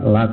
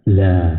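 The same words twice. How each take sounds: First: The syllable is said light and thin. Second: The syllable is said heavy and thick. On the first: The speaker calls it wrong. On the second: The speaker calls it right.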